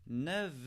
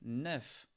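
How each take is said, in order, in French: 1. Le mot se termine par un son V. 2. Le mot se termine par un son F. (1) "le F se prononce comme un V" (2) "quand il est tout seul, on prononce le F"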